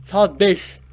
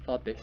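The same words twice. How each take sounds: First: Loud, higher-pitched cheer; excited announcement. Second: Said in the usual way. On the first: Real, not acted. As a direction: call out the hour triumphantly. Repeats the hour as a cheer.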